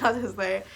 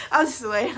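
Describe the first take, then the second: First: Said in the usual way. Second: Laughing it off. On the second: Real, not acted.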